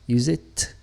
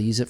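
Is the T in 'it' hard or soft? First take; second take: hard; soft. First: The T at the end is hard and crisp. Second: The T at the end is soft and light. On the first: "So kind of a hard T there" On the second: "Kind of a softer T"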